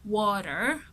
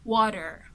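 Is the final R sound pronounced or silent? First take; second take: pronounced; pronounced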